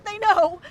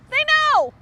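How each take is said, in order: First: Said in the usual way. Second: Sudden paranoid cry. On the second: Acted. Paranoid repeats about the ducks.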